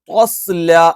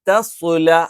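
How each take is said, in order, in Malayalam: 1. രണ്ട് വ്യഞ്ജനങ്ങളും കനമുള്ളതായി, ഊന്നലോടെ ഉച്ചരിക്കുന്നു. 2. ആദ്യത്തേത് കനം കുറഞ്ഞതും രണ്ടാമത്തേത് കനമുള്ളതുമാണ്. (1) "ഇനി നമ്മൾ ഓവർ ആക്കിയാൽ" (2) "ആദ്യം തായാണ്, രണ്ടാമത്തേത് സ്വായാണ്"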